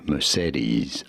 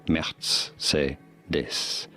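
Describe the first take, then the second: First: It is said with an English pronunciation. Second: It is said with a German pronunciation.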